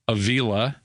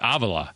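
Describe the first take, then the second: First: The name is said with an Americanized pronunciation. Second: The name is said with a Spanish pronunciation. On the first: The player chose an Americanized version of his name. "they Americanize their name" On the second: The father keeps the original pronunciation of the name. "some of the Latin guys go with the real pronunciation"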